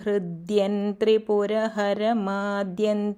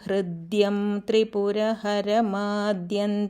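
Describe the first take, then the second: First: The words are joined, final m becomes n. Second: The words are read separately, final m kept. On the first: "ചേർത്ത് വായിക്കുമ്പോൾ സന്ധി" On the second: "ഈ ശ്ലോകം ഇങ്ങനെ വായിക്കാം"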